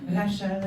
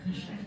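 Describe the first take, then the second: First: Rachel with a French uvular R and open vowels, ra-SHAL; French pronunciation. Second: Rachel with a French uvular R, ra-SHAL, soft and low; sexy French Rachel. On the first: Retold or imitated. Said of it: "She said". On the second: Shown as a demonstration. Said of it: "that sounds quite sexy".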